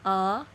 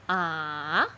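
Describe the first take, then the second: First: The pitch rises from mid to high. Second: The pitch dips down and then rises. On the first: "like when we point something to others" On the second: "rated down and then up"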